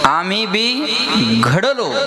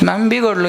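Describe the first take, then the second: First: There is a pause after 'amhi bi'. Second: It is said smoothly with no pause inside. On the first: We too have been shaped well. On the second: We have been spoiled.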